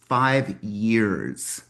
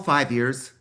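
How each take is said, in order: First: The words are said slowly and deliberately. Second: The words are said at a normal pace.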